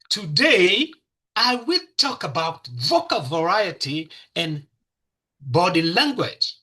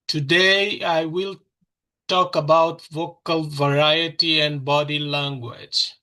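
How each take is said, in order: First: It is said in a lively, varied voice. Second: It is said in a flat, dull voice. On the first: The speaker calls it right. "It's different" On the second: The speaker calls it wrong. "How do you feel? It's bad, right?"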